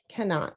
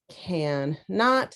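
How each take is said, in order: First: The two syllables are blended quickly together. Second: The two syllables are said slowly and apart.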